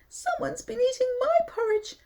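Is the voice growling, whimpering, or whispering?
whimpering. It is said in a small whimpering voice.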